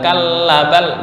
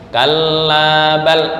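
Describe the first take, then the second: First: The vowel in 'la' is cut short. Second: The vowel in 'la' is held long. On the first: The speaker calls it wrong. "Bukan kalla bal, bukan begitu" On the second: The speaker calls it right. "la ini panjang satu alif"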